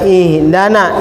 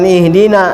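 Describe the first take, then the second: First: The vowel after d is a. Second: The vowel after d is i. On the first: The speaker calls it wrong. "dalnya dinasobkan" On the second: The speaker calls it right. "bukan ihdina ya"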